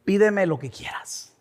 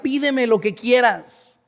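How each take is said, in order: First: Soft, hushed divine offer; voice of God. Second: Slow, emphatic divine offer; voice of God. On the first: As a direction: say it quietly, letting it trail off. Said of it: "que Dios te diga así". (voz de Dios, suave y baja) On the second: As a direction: stretch the offer out, marveling at it. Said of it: "Imagínate que Dios te dijera". (voz de Dios, lenta y enfática) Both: Acted.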